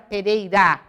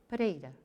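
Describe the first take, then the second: First: The vowels are full, with a wide open a. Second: The vowels are reduced and partly dropped. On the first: "que nem a gente fala, o A bem aberto" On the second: "ele dizia Pereira. Ele já tinha eliminado vários es"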